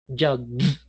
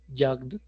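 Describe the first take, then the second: First: It is said slowly with an exaggerated final d. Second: It is said quickly with a subtle final d. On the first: "ahí estoy exagerando el gesto" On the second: "si uno lo quiere pronunciar rapidito"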